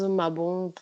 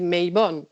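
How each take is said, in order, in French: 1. Le nom se prononce à la française. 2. Le nom se prononce à l'anglaise. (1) "à la française" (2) "la prononciation euh, euh, historique c'est Maybon"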